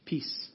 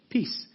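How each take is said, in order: First: Said in the usual way. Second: Higher, louder second answer of Peace; louder repeat. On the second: Real, not acted. Preacher's congregation answer, said louder and higher. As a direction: call back Peace up high and strong. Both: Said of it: "Say it again, what?".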